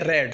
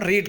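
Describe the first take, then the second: First: The vowel is short, sounding like 'red'. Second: The vowel is long, sounding like 'reed'. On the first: The action happened in the past. "इसको हम यहाँ पढ़ेंगे रेड, second form में है।" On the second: The action is in the present. "First form जो होती है उसको रीड कहते हैं"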